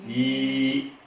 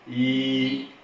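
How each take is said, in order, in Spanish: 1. Empieza con un sonido palatal 'ly'. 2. Empieza con un sonido palatal 'ly'.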